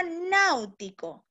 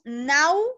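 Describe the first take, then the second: First: Said in the usual way. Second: "náutico" split as náu, ti, co with long pauses; syllable by syllable. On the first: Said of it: "la palabra". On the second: Shown as a demonstration. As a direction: break "náutico" into three separate beats, náu-ti-co. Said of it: "separaríamos en sílaba".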